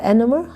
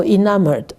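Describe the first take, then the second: First: ENAMORED stressed on the first syllable; ENAMORED with the opening syllable stressed, questioning; mispronounced ENAMORED. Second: ENAMORED stressed on the second syllable; ENAMORED with the middle syllable carrying the stress; corrected ENAMORED. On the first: Real, not acted. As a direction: say ENAMORED as EN-uh-mord, unsure. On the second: Shown as a demonstration. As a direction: say ENAMORED as in-AM-erd. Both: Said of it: "The second syllable is always".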